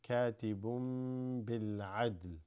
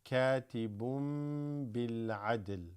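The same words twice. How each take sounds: Both takes have the same delivery.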